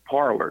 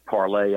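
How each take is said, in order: First: The word ends with an 'er' sound. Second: The word ends with an 'ay' sound. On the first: The speaker calls it wrong. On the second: The speaker calls it right.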